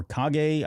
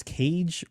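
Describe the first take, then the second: First: Kage said "KAH-gay"; Kage as two syllables. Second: Kage said like "cage"; Kage as one syllable. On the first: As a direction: say Kage with a hard G and a final "ay". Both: Shown as a demonstration. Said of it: "I don't know if it's Kage or Kage".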